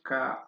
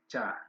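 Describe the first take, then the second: First: The word begins with a hard k sound. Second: The word begins with a ch sound. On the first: "is it ka or cha?" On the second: "my lecturer told me is cha"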